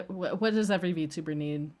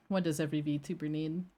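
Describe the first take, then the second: First: Said in the usual way. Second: Softer repeat. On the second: Shown as a demonstration. Streamer quietly repeating her old line, softer and lower. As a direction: lower and softer, asking again.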